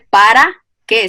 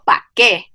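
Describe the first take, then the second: First: The first word is said in full, two syllables. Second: The first word is cut to one syllable. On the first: "No pronuncia el para qué" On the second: "sino pa' qué, pérdida de consonante"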